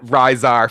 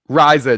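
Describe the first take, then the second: First: The name ends with an added r sound. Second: The name ends in a plain vowel, no r. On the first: The speaker calls it wrong. "I add R's to everything" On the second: The speaker calls it right. "not Ri- Rizar"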